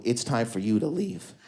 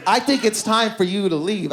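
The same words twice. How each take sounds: First: Offhand dismissal. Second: Higher, firm order to go; mock-stern voice showing someone the door; insistent dismissal. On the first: Retold or imitated. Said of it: "doing something at their table like this". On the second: Woman sending her hookup home, insistent dismissal. She acts out kicking him out.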